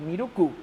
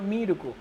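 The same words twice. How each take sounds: First: The pitch accent falls on a later syllable. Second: The pitch accent falls on the first syllable. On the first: The speaker calls it wrong. "en vez de Miruku, como yo lo mencionaba" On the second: The speaker calls it right. "la entonación va al principio"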